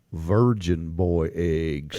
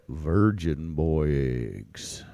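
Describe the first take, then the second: First: Deep, slow ominous voice; low voice. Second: Very deep, slow and quieter; low voice. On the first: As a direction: drop way down low. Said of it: "And you have to say it". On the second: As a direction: drop the voice way down. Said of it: "Just like that". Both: Shown as a demonstration.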